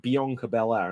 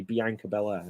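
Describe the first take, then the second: First: Bianca as bee-AHNK-uh, then Belair; their pronunciation. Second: Bianca as bee-ANK-uh, then Belair; short "a" as in "bank" in Bianca; habitual UK pronunciation. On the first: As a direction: open "ah" in the middle of Bianca. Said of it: "but they say, like". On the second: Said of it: "I always just keep going to say". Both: Shown as a demonstration.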